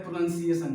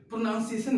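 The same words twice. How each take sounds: First: प्रोनाउंसिएशन with "nun" in the middle; correct pronunciation. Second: प्रोनाउंसिएशन with "noun" in the middle; wrong pronunciation. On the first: Teacher naming the right form, प्रोनाउंसिएशन with "nun". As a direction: say प्रोनाउंसिएशन as "pro-NUN-si-ay-shun". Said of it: "इसी को बोला जाता है". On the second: Teacher flagging the mistake, प्रोनाउंसिएशन with "noun". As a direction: say प्रोनाउंसिएशन as "pro-NOUN-si-ay-shun". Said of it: "गलत होता है". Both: Shown as a demonstration.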